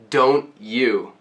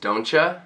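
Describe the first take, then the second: First: Both words are said slowly and fully. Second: The words are shortened, with 'you' reduced to 'ya'. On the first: The speaker calls it wrong. "slowly this would be don't you" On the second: The speaker calls it right. "an expression that we shorten a lot"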